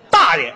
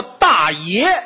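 First: 大爷 with 爷 full-toned and rising, dà yé, like a swaggering master; 大爷 stressed on 爷, rising tone; big-shot "daye". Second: Put-on 大爷 with 爷 light and unstressed, dàye, as in "old uncle"; 大爷 in the neutral tone, weight on 大; plain "uncle" daye. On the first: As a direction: say 大爷 pushing hard on 爷 so it sounds like "lord and master". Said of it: "您这话说的这个重音不对". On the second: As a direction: say 大爷 stressing 大, letting 爷 fall away light. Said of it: "应该叫大爷". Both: Shown as a demonstration.

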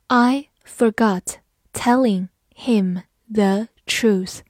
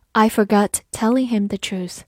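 First: Slow, each word set apart; slow reading. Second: Said in the usual way. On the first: Shown as a demonstration. Teacher reads the second sentence for learners, slowly. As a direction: read it one word at a time.

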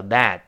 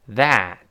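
First: "that" with the last t barely audible; unreleased final t. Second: Said in the usual way. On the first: Shown as a demonstration. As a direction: hold back the t at the end of "that". ("that"结尾的t听不清) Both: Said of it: "最后那个t听不清了".

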